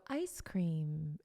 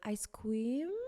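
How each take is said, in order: First: The pitch falls at the end. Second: The pitch rises at the end. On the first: The speaker calls it right. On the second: The speaker calls it wrong.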